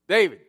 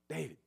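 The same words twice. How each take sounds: First: The name is called more loudly. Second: The name is called at normal volume.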